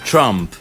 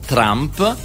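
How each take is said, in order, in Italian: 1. Si pronuncia all'inglese. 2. Si pronuncia all'italiana. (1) "e invece è Trump" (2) "diciamo Trump"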